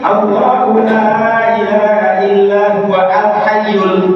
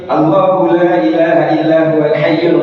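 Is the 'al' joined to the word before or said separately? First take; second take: separate; joined. First: The 'al' is said separately with its own vowel. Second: The 'al' is joined smoothly to the word before. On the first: The speaker calls it wrong. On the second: The speaker calls it right.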